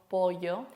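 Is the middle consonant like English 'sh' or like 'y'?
y. The middle consonant sounds like a 'y'. This is how other Spanish speakers say it. "Nosotros no decimos pollo"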